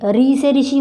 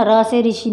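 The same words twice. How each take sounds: First: री said with an "i" vowel, as in ऋषि; "ri" pronunciation. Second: र said as "ra", with an "a" vowel; "ra" pronunciation. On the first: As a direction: say री as "ree" before से ऋषि. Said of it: "बोलते हैं ना". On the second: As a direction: say र as "ra" before से ऋषि. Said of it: "नहीं बोलते हम". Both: Shown as a demonstration.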